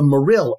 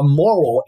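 First: Morrill as "muh-RILL"; stressed second syllable. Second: Morrill as "MOR-ul"; pronounced like "moral". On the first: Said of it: "I will always pronounce it as". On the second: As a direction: say Morrill just like moral, first syllable stressed. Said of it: "I refuse to label this subterfuge law as". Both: Shown as a demonstration.

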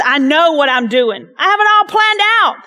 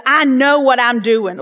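First: Hammed-up Southern God voice; playful Southern twang. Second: Said in the usual way. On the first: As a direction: lean into a folksy Southern twang. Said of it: "I don't know if he's kinda having, like, this so Southern twang". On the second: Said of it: "this so Southern twang".

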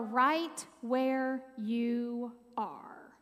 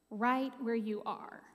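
First: Slow breathy whisper; whispered phrase. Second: Said in the usual way. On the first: Shown as a demonstration. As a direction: whisper the key phrase slowly. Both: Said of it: "four very easy words".

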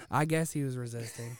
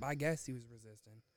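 First: Firmer, punched-up "I guess he was resisting"; pointed repeat. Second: Said in the usual way. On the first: Real, not acted. Repeats line louder for effect.

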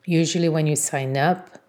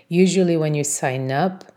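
No difference in how they are said.

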